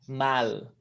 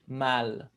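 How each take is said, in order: First: The final L is pronounced as an L. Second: The same.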